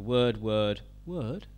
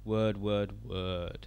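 First: The pitch rises at the end. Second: The pitch falls at the end. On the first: It is heard as a question. "at the end of the statement, it can go up" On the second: It is heard as a statement. "have it go down at the end"

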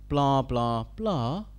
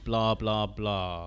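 First: The pitch rises at the end. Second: The pitch falls at the end. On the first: It is heard as a question. "at the end of the statement, it can go up" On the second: It is heard as a statement. "have it go down at the end"

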